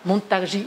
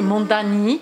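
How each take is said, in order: First: The name is said with a J sound. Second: The name is said with a D sound.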